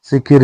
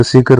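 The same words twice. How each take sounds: First: शिखिर with i in both syllables; wrong second i. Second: शिखर with short a before final r; correct short a. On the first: Teacher showing learners the mistake, शिखिर ending -kir. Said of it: "शिखर होता है". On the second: Teacher giving learners the correction, शिखर ending -kar. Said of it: "शिखिर नहीं होता". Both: Shown as a demonstration.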